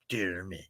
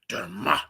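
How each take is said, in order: First: The name is said in a plain, flat way. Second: The name is said in a grander, invigorating way. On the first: It is the pronunciation the listener asked for. "it just just just sounds so so plain though" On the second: It is the speaker's own preferred pronunciation. "It sounds more invigorating saying Dermot. It sounds like it has a a Mount Rushmore to it"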